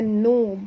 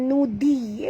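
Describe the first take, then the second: First: The middle consonant is a heavy, thick dh. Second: The middle consonant is a plain light d. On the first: The speaker calls it right. "dhi tebal ya... tapi baca nudhi" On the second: The speaker calls it wrong. "Jangan baca nudi ya"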